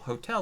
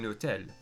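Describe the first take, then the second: First: The word starts with an H sound. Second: The word starts without an H sound.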